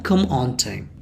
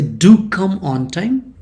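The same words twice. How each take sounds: First: Said in the usual way. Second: "Do come" drawn out slowly and pitched up; slow, lifted emphasis on "Do come"; emphatic DO. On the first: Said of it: "you can say that". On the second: Shown as a demonstration. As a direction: lean on "Do" and stretch the phrase. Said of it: "you are stressing that come".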